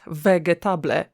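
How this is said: It is read letter by letter, Polish-style. The speaker calls it wrong.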